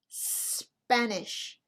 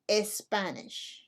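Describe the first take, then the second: First: The word starts directly with the S sound. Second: The word starts with an added E vowel. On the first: The speaker calls it right. "So it's Spanish" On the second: The speaker calls it wrong. "not Espanish"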